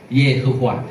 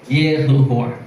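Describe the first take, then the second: Both takes have the same delivery.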